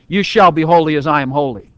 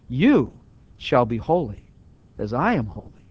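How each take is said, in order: First: It is said as a firm command. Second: It is said as a reassuring promise. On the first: It is an order to obey. "Give it the imperative mood" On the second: It promises what will come to pass. "this way with the indicative mood"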